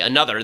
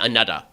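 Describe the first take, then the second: First: The middle consonant is a 'th' sound. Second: The middle consonant is a 'd' sound. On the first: "they don't say another" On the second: "they say anuddah, right? A N U D D A H"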